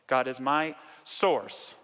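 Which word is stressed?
source. The word source is stressed.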